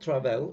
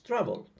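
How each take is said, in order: First: The stress is on the last syllable. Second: The stress is on the first syllable. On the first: The speaker calls it wrong. "It's not travel" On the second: The speaker calls it right. "the stress falls on the first syllable"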